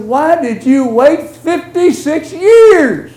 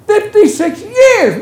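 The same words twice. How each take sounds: First: Slow, drawn-out disbelief with weight on years; slow incredulous question. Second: Much higher, louder, slow cry of disbelief; astonished exclamation. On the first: Preacher asking the congregation why anyone waits, slow and incredulous. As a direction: lean on the wait, let it sink in. Preacher marvels at the long wait. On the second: Preacher exclaiming to the congregation, astonished and loud. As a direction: throw the number up in amazement. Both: Acted.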